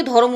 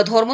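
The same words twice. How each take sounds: First: ধর্ম said as dho-rom, vowel between র and ম; ধর্ম with its cluster split as dho-rom; eased pronunciation. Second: Said in the usual way. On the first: Shown as a demonstration. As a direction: break ধর্ম into two syllables, dho-rom. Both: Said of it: "ধর্ম থেকে ধর্ম উচ্চারণ হলো".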